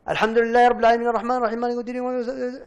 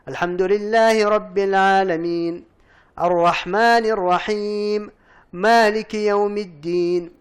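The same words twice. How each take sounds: First: It is recited fast without stopping. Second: It is recited slowly, pausing after each verse.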